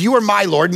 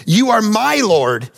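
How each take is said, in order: First: Said in the usual way. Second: MY drawn out in "You are my Lord"; slow emphatic reading. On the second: Real, not acted. Preacher reading the verse to the congregation, slow and emphatic. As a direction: read "You are my Lord" slowly, leaning on "my".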